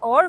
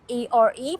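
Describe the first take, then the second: First: "are" said as one word, sounding like "ar"; pronounced as word. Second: ARE spelled out as the letters A, R, E. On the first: Teacher showing a learner how are sounds, pronounced as one word. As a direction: say "are" whole, with a silent final e. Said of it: "هي بتتنطق". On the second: Teacher showing a learner how are is written, spelled out. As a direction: say "إيه آر إي" letter by letter. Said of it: "فأنا بسمع هي بتتنطق". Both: Shown as a demonstration.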